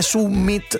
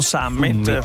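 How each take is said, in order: First: The word is read with Latin-style vowels. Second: The word is read with English-style vowels. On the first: The word comes from Latin. The speaker calls it right. "io dico anche summit" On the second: The word is treated as English. The speaker calls it wrong. "non summit"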